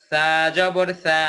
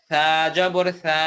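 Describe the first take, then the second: Both takes have the same delivery.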